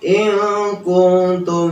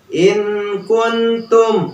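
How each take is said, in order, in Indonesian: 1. Huruf n disamarkan dan berdengung menyatu ke k. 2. Huruf n diucapkan jelas sebelum k. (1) "nun mati bertemu dengan kaf ikhfa" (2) "jangan malah dibacanya in kuntum. ... itu kurang tepat"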